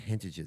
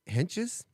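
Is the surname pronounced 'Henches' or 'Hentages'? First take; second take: Hentages; Henches. First: The surname is said as 'Hentages'. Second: The surname is said as 'Henches'. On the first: The speaker calls it wrong. "I've always said Hentages" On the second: The speaker calls it right. "It's Clint and Julie Henches"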